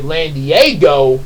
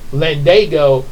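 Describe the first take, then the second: First: The middle is said as 'dee-eh', two sounds. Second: The middle is said as a single 'da' sound. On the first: The speaker calls it wrong. "when I was a kid, I kept pronouncing it Landiego" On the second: The speaker calls it right. "now I pronounce it the way I spell it"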